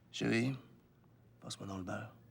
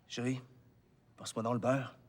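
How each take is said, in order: First: It is said softly but intensely. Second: It is said loudly.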